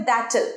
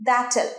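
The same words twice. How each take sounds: No difference in how they are said.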